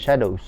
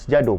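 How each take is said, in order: First: It is pronounced like the English word 'shadows'. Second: It is read letter by letter as 'Sjado'. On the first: This is the name's actual pronunciation. The speaker calls it right. "tapi sebenarnya is Shadows" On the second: This is how the spelling reads literally. The speaker calls it wrong. "Kalau dibaca Sjado pula"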